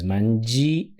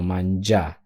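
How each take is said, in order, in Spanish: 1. La i suena como su propia vocal. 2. La i es muda y suena como ja. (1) "no es mangi" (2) "no suena la i, sino mangià"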